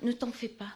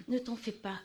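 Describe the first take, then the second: No difference in how they are said.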